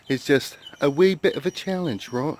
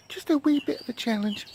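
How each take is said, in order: First: Lightly put-on British accent; playful hint of British accent; mock British accent. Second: High, soft put-on British accent; mock British accent, tiny voice. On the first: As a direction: toy with a British lilt on the phrase. Playfully puts on British-style accent.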